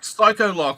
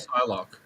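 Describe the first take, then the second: First: The name has an extra syllable in the middle. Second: The name has two syllables with nothing added. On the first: The speaker calls it wrong. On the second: The speaker calls it right.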